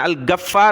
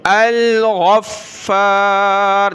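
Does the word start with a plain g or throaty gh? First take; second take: plain g; throaty gh. First: The first consonant is a plain hard g. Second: The first consonant is a throaty gh sound. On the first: The speaker calls it wrong. "यहाँ आपने गाफ नहीं पढ़ना, अल-गफ्फार नहीं पढ़ना" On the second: The speaker calls it right. "गैन पढ़ना है"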